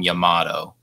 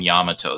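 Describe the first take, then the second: First: The name is said with an anglicized pronunciation. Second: The name is said with a Japanese-style pronunciation. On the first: The speaker calls it wrong. "They don't call him Yamato" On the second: The speaker calls it right. "they call him Yamato"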